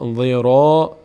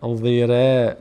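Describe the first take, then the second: First: The r is heavy with a full vowel. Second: The r is light with a thin vowel. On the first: The speaker calls it right. "را از اون هشت حرف هست پرخوانده میشه" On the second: The speaker calls it wrong. "نمیگیم ضیره ضیره، نه"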